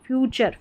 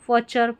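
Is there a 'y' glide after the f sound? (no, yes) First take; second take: yes; no. First: The f is followed by a 'yoo' sound. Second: The f is followed directly by a short vowel. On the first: The speaker calls it right. "हाँ फ्यूचर इसका सही उच्चारण" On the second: The speaker calls it wrong. "अब इसको फ भी पढ़ सकते हैं"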